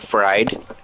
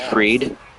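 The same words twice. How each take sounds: First: The name sounds exactly like 'fried'. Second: The name does not sound like 'fried'. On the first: It makes a pun on fried rice. "if you pronounced it like fried" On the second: This is how the name is really said. "Max's last name is pronounced Fried"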